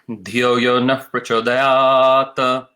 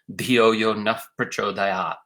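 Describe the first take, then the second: First: A short extra vowel follows the final word. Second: The final word ends without an added vowel.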